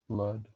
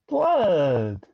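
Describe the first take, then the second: First: The word is said in a low, menacing way. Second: The word is said in a lighter, excited way. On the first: The speaker calls it wrong. "say blood menacingly in the background" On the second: The speaker calls it right. "with less menace than that"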